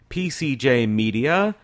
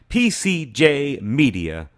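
First: It is said at normal speed. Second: It is said more slowly.

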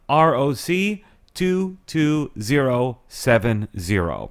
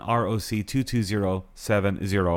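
First: It is said more slowly. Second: It is said at a normal pace.

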